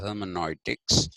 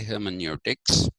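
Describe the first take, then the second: First: The 'eu' sounds like 'oi'. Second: The 'eu' sounds like 'yoo'. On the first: It follows the German way of saying it. "we don't really have to adopt that pronunciation of" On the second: It follows the ordinary English way of saying it. "We can say"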